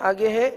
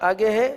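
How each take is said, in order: The two takes are said the same way.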